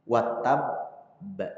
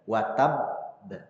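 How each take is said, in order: First: The final doubled b is held before release. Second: The final doubled b is held before release.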